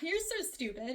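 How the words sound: It is said playfully, with a laugh.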